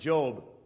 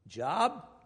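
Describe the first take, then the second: First: The vowel is a long, hard O sound. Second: The vowel is a short o sound. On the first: This is how people at home say the name. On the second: This is how people overseas say the name.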